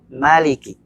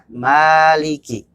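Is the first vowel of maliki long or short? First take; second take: short; long. First: The first vowel is kept short. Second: The first vowel is held long. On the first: This is the reading used in An-Nas. "dibaca pendek" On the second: This is the reading used in Al-Fatihah. "mim dibaca dua harokat"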